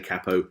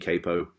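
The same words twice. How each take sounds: First: The word is said the British way. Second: The word is said the American way. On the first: "So I say capo" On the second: "over in America it tends to be capo"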